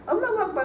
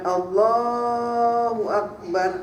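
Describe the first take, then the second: First: It is said fast. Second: It is said slowly.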